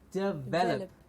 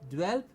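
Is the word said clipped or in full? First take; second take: in full; clipped. First: Every syllable is pronounced fully. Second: The first vowel is dropped, so the word is clipped. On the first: The speaker calls it right. "But the correct pronunciation" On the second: The speaker calls it wrong. "very often mispronounced as dwelp"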